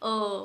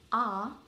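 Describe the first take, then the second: First: The vowel is a dull, half-open 'uh'. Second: The vowel is a wide-open 'ah'. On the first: The speaker calls it wrong. "we are not saying uh" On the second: The speaker calls it right. "Open your mouth properly and say ah"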